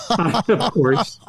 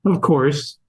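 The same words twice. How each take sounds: First: Soft laugh into a higher, softer repeat; amused at the obvious. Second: Said in the usual way. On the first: Real, not acted.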